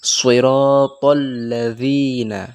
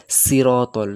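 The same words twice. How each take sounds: First: সিরাতাল very slowly with a heavy, thick সদ; সিরাতাল লাযিনা with a full heavy s; slow recitation with a heavy s; correct pronunciation. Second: সিরাতাল with a thin সিন-like s; সিরাতাল said light, the wrong way; wrong pronunciation. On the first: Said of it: "correct recitation". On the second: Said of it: "তো সেটা ভুল". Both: Shown as a demonstration.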